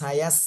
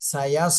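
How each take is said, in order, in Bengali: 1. s আওয়াজটি হালকা ও পাতলা। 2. s আওয়াজটি ভারী ও মোটা। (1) "পাতলা করে পড়েন সায়াস" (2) "একটু মোটা আওয়াজ হবে"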